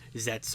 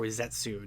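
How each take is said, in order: First: The name ends with a bare 'ts' sound. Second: The name ends with a 'tsu' syllable. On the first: "it's pronounced Zets" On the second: "or Zetsu"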